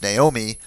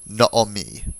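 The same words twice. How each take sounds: First: The first vowel sounds like the familiar English form. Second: The first vowel is a short 'aw' sound. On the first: "what you know as Naomi" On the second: "tips us off that it is a kametz hatuf"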